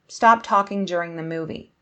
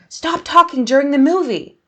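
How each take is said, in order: First: It is said as a calm command. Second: It is said as a strong, angry command.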